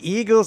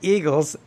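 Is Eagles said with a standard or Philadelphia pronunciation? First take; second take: standard; Philadelphia. First: It is said with a standard pronunciation. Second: It is said with a Philadelphia local pronunciation.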